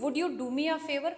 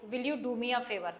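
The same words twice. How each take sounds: First: Humble request. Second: Said in the usual way. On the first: Shown as a demonstration. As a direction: ask humbly, with care. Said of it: "बात करने में humbleness आ गई". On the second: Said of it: "normal".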